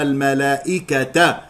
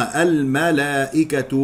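First: "الملائكة" said al-malaa'ikata, ending in a; wrong accusative ending. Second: "الملائكة" said slowly as al-malaa'ikatu; damma ending. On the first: Teacher showing the mistake, "الملائكة" ending in -ata. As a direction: end "الملائكة" on a clear ta with fatha. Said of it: "يخطئ من يقرأ الملائكة بالنصب". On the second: Teacher giving the correct case, slow "الملائكة" ending in -atu. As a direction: end "الملائكة" on a clear tu. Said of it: "مضمومة". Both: Shown as a demonstration.

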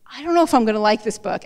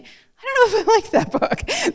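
First: Said in the usual way. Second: High, slow, laughing voice; a giggling, puzzled reader; amused high quote. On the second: Retold or imitated. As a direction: lift way up and laugh through the doubt. Quoting a reader's thought, laughing.

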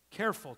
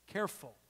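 First: Said in the usual way. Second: Quiet, hushed caution; soft warning. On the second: Real, not acted. Pastor cautioning his congregation, quiet. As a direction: ease the word down gently.

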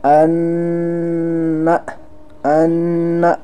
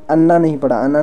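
First: "अन्ना" with a long held nn; drawn-out nasal. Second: "अन्ना" said short, without holding the nn; quick "अन्ना" with no lengthened n; unstretched. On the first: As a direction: stretch the nn in "अन्ना" before releasing the final a. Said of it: "हमने थोड़े खींच कर भी पढ़ा". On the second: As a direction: rush through "अन्ना" as the wrong, unstretched reading. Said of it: "बल्कि हमने पढ़ा". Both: Shown as a demonstration.

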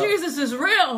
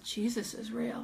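First: Slow, loud, higher-pitched cry of wonder; amazed exclamation. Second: Slow, soft acted astonishment; hushed amazement. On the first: Retold or imitated. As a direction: proclaim it loudly in astonishment. Repeats realisation as loud exclamation. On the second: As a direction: say it softly, as if stunned. Stunned group looks around.

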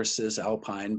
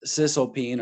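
First: Cisalpine said with last syllable as "pine"; alternative pronunciation. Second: Cisalpine said with last syllable as "peen"; usual pronunciation. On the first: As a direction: say Cisalpine to end like the tree "pine". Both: Shown as a demonstration. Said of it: "but it's typically pronounced Cisalpine".

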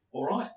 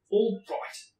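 First: Said in the usual way. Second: Higher, louder all right; louder insistent. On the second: Acted. Harry giving in to his uncle, higher and louder. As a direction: push the second all right up.

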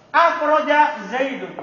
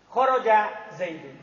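First: "Akhroja" said slowly with a clear added a- prefix and a stressed first syllable. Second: "Khoroja" said slowly, no a- prefix, plain kh-o-r-o-ja. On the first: Teacher shows students the transitive verb form, slowly. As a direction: lean on the a- of "Akhroja" to show the new form. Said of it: "Berarti lihat contoh". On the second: Teacher reads out the base verb example slowly. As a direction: read out "Khoroja Zaidun" as the base form, unhurried. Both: Shown as a demonstration.

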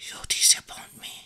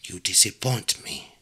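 First: Hushed, voiceless whisper. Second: Low, soft witch's verdict; quiet menace. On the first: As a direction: whisper it close to the listener's ear. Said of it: "She whispered". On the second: Witch about to curse princess. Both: A narrator's reading.

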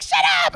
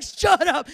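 First: High-pitched teasing squeal; playful, much higher voice; cute, playful. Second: Acted annoyance, no playfulness; angry texter. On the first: Retold or imitated. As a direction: toss it off high and cutesy. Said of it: "I didn't think it was a cute". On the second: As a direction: bite it out like an irritated husband. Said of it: "he would put three angry faces".

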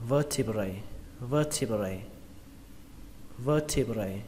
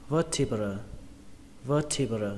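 First: "vertebrae" ending in "bray", the letter-A sound. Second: "vertebra" ending in a schwa, "brơ"; vertebra singular ending. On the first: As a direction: finish "vertebrae" on a clear AY. (đọc "vertebrae" với âm cuối "brây") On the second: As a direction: finish "vertebra" on an unstressed uh. (đọc "vertebra" kết thúc bằng âm "brơ") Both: Shown as a demonstration. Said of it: "cái âm cuối cùng nó thành âm A".

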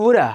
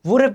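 First: "Woulda" said as one quick word; casual "Woulda"; reduced form. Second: "Would have" said out in full; careful full "Would have"; full form stressed. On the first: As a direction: blend would have into "Woulda". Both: Shown as a demonstration. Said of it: "Would have কে বলবো".

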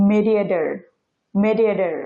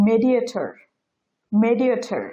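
First: মেডিয়েটর as "medieder", t softened to d; flapped t. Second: মেডিয়েটর with a clear final t sound; standard pronunciation. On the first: Teacher showing the native flap, মেডিয়েটর with d for t. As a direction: swap the last t of মেডিয়েটর for a d. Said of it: "ঠ সাউন্ডটা আছে এটাকে ড উচ্চারণ করে". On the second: Teacher modelling the standard form, মেডিয়েটর with a true t. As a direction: say the t firmly in মেডিয়েটর. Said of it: "এটা standard pronunciation". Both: Shown as a demonstration.

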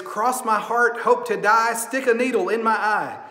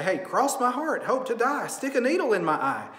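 First: Sing-song chant. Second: Said in the usual way. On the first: Retold or imitated. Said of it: "it's a little sing-song, catchy phrase". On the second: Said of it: "and we would say".

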